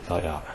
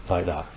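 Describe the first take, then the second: Both takes have the same delivery.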